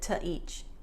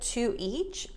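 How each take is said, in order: First: The word 'to' has a short weak vowel. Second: The word 'to' has a full 'oo' vowel. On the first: The speaker calls it right. "Americans tend to reduce the to" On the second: The speaker calls it wrong. "instead of"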